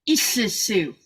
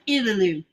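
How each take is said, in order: First: The double L hisses out the mouth's sides. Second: The double L is a plain L sound. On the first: The speaker calls it right. "sound that's supposed to come out of the side of your cheeks" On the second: The speaker calls it wrong. "that looks like Illalu. No, it's not"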